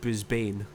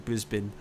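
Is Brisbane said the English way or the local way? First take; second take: English; local. First: The name is said with an English pronunciation. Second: The name is said with the local pronunciation. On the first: The speaker calls it wrong. "me being English and like pronouncing it as a sort, I said Brisbane, which is apparently not correct" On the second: The speaker calls it right. "It's actually Brisbane"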